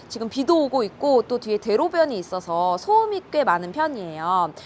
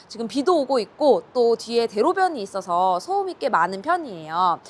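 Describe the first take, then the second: No difference in how they are said.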